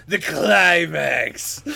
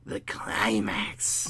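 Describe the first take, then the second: First: Slow and dramatic; drawn out. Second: Slow breathy whisper. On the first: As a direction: stretch the word out grandly. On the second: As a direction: breathe the words out slowly. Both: Shown as a demonstration.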